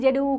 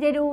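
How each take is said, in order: First: The middle consonant is an 'r' sound. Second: The same.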